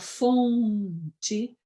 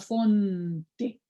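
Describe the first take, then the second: First: The n stays open and nasal. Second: The tongue closes fully on the n. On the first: This is how Brazilians say it. The speaker calls it right. "A gente fala fonte" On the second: This is not how Brazilians say it. The speaker calls it wrong. "também não fala fonte"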